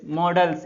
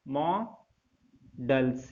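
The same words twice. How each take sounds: First: मॉडल्स said with a closed "mo", as in "mode"; the mistaken मॉडल्स the students should avoid, closed o; मॉडल्स read the wrong way, plain "mo-dels"; wrong pronunciation. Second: मॉडल्स drawn out very slowly and low, open "maw-dels"; slow teacher's model of मॉडल्स with an open "maw"; correct pronunciation. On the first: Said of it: "इसको मॉडल्स नहीं पढ़ना है". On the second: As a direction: demonstrate मॉडल्स with an open o, syllable by syllable. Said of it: "ये पढ़ना है इसको". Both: Shown as a demonstration.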